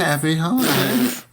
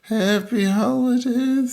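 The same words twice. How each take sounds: First: Raised, cheery sign-off; festive echo. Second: Very high, drawn-out holiday wish; exaggerated festive greeting. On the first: Pretend. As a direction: echo the holiday greeting in a lifted voice. Echoes co-host's festive sign-off. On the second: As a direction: stretch the greeting out slowly, up high.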